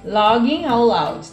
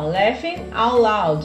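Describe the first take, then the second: First: The first word sounds like logging. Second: The first word sounds like laughing. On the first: The speaker calls it wrong. "não é logging out loud" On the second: The speaker calls it right. "Então, ó, laughing out loud"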